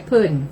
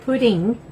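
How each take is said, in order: First: Pudding is said in a Southern accent. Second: Pudding is said in a non-Southern accent. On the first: This is how people in the South say it. "In the South, we say pudding" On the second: This is how people outside the South say it. "We don't say pudding"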